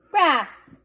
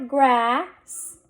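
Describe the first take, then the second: First: Said in the usual way. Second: Grass drawn out, rising, s held apart; blended slowly. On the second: Shown as a demonstration. Teacher sounding out a word for readers, blended slowly. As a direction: stretch the vowel in grass before the s. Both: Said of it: "Let's read this".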